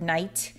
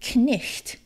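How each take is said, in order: First: The k and gh are silent. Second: The k and a throaty gh are sounded. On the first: This is the modern pronunciation. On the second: This is how it was said in Old English.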